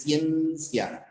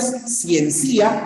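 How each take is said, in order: First: "ciencia" slowly as CIEEN-cia, ending in a diphthong; stress on CIEN. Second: "ciencia" wrongly as cien-CÍ-a; stress on final I. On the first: Teacher correcting for class, slow stressed CIEN in "ciencia". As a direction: draw out the first syllable of "ciencia". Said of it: "Pero no decimos ciencia, es ciencia". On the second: Teacher posing a hypothetical hiatus, stressed second I in "ciencia". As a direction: break the end of "ciencia" into CÍ-A, I stressed. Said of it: "Pero no decimos ciencia". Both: Shown as a demonstration.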